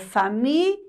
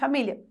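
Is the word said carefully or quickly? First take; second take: carefully; quickly. First: It is said carefully, ending with a clear 'li'. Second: It is said quickly, ending like 'lha'. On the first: The speaker calls it right. "o correto, gente, é família. Li" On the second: The speaker calls it wrong. "se eu falar rapidamente"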